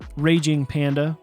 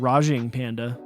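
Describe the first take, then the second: First: The first word begins like 'rage'. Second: The first word begins like 'rahj'.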